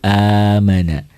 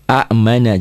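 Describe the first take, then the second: First: A long vowel comes before the m. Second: A glottal catch comes before the m. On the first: The speaker calls it right. "dua alif dibuat satu" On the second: The speaker calls it wrong. "Ada dua hamzah"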